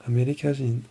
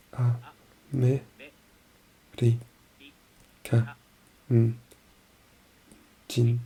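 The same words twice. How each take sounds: First: Said in the usual way. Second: Very slow A-me-ri-ka-n-jin, each syllable split. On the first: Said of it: "A-me-ri-ka-n-jin". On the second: Shown as a demonstration. Learner breaking the word into syllables, very slow. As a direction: spell it out slowly, one syllable at a time.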